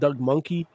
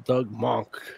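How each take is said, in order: First: The surname is said with two syllables. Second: The surname is said with one syllable. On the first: The name is being made fun of. The speaker calls it wrong. "I used to call him Doug Monkey" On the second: The name is said respectfully. The speaker calls it right. "how I think it's supposed to be pronounced"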